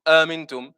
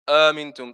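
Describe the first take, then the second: No difference in how they are said.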